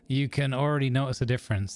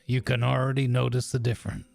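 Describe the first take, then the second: First: It is said in a normal voice. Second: It is said in a low, gravelly voice.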